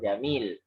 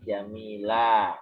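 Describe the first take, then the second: First: The word ends on the consonant l. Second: The word ends on a long a vowel. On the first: The speaker calls it wrong. "tidak dibaca jamil" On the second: The speaker calls it right. "tapi jamila"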